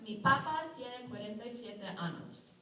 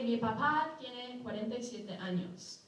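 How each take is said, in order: First: Papa is stressed on its first syllable. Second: Papa is stressed on its second syllable. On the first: The speaker's potato has forty-seven anuses. The speaker calls it wrong. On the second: The speaker's father is forty-seven years old. The speaker calls it right.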